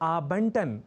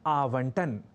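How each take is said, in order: First: The middle consonant is a b sound. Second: The middle consonant is a v sound. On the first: The speaker calls it wrong. "गलती से हम में से कई आबंटन बोल दिया करते हैं" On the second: The speaker calls it right. "शब्द है आवंटन"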